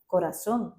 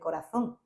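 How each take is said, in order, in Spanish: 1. La z se pronuncia como una s. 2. La z se pronuncia como una th. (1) "si decía corazón" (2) "empecé yo a usar la Z"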